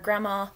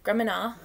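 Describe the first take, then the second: First: The M sound is said plainly and cleanly. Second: The M comes out blended with an N. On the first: The speaker calls it right. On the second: The speaker calls it wrong.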